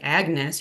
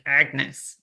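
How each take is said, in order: First: It is said plainly, without a snarl. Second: It is said with a snarl.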